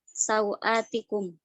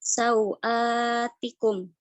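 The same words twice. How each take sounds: First: The long vowel is held short. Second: The long vowel is held medium length. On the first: "maka mad badal boleh dibaca dengan qasr" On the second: "maka mad badal boleh dibaca dengan uh, tawasud"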